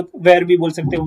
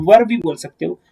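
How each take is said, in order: First: "where" said as "ver", without an h; e-vowel variant. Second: "वर" said as "vur"; uh-vowel variant. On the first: Teacher giving students a choice, "where" said as "ver". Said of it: "एच का sound मत देना". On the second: Teacher giving students a choice, "वर" said as "vur". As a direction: say "वर" with a short uh vowel. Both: Shown as a demonstration.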